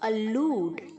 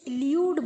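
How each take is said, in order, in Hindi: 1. L के बाद सादा 'oo' स्वर आता है। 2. 'oo' स्वर से पहले 'y' की आवाज़ आती है। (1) "डबल ओ प्रोनाउंस होगा" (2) "बहुत सारे बच्चे इसे ल्यूड बोलते हैं। यू प्रोनाउंस नहीं होगा"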